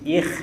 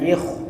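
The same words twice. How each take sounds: First: The kh sound is thin and light. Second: The kh sound is thick and heavy. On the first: The speaker calls it right. "jadi ikh itu tipis" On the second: The speaker calls it wrong. "bukan ikh"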